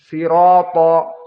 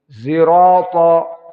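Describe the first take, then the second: First: It begins with a plain, light s sound. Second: It begins with a sound blended toward z. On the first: This is the reading of Qunbul and Ruwais. "dengan sin" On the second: This is the reading of Khalaf from Hamzah. "maka ismam menjadi zai"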